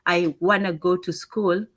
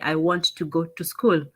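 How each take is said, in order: First: 'Want to' is reduced to 'wanna'. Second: 'Want to' is said as two full words. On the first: This is how Americans say it. "Americans also say a lot of gonna and wanna" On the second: This is how Kenyans were taught to say it. "We'd say"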